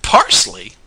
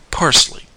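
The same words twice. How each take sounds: First: Loud, incredulous shout. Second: Higher-pitched, crisp one-word reply; matter-of-fact answer. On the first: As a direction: shout it back in disbelief. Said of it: "shouted he". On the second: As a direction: answer brightly in a raised pitch. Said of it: "much as Charlie had done". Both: A narrator's reading.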